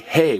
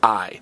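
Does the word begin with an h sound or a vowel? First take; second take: h sound; vowel. First: The word begins with an h sound. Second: The word begins with a vowel sound. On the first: The speaker calls it wrong. "we don't say que hay" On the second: The speaker calls it right. "we say I"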